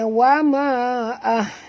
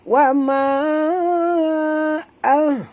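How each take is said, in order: First: The vowel in ma is kept short. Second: The vowel in ma is held long. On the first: The speaker calls it wrong. "jangan baca wa ma ah. Nah, salah tu ya" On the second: The speaker calls it right. "bacaannya empat hingga lima harakat"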